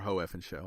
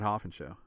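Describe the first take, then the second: First: The name is split into three syllables. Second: The name is run together into two syllables. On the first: "I'll say it right once" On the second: "But it's mostly Hoffin Show"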